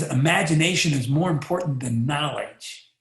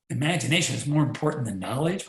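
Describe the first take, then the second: First: Said in the usual way. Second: Mock disbelief at the quote; incredulous echo. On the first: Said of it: "One guy says". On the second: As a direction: repeat the quote as a doubting question, rising at the end on knowledge. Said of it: "Wait a minute".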